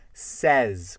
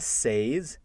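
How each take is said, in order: First: The vowel sounds like a short 'eh'. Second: The vowel sounds like the 'ay' in say. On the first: The speaker calls it right. "c'est says, comme S-E avec un accent grave, Z" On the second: The speaker calls it wrong. "C'est pas says, comme j'entends souvent avec les francophones"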